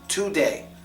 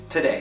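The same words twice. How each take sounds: First: The first vowel is a full, clear vowel. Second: The first vowel is a reduced schwa sound. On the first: It sounds like a foreign accent. The speaker calls it wrong. "you would have an accent if you said it like that, a foreign accent" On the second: It sounds like a native speaker. The speaker calls it right. "How we say it is today"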